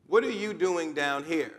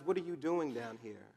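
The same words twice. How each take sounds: First: Slow, deliberate "What are you doing down here"; "What" launched firmly, then slowly spaced words; emphatic repeated question. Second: Said in the usual way. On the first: Acted. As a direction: stretch out "doing down here", stressing each word.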